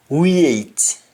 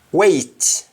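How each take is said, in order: First: Weight as "wee-et"; Jamaican pronunciation. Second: Said in the usual way. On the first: Shown as a demonstration. Teacher showing Jamaican speech, weight said as "wiet". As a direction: put an ee glide into weight, "wiet". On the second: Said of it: "we write N I E".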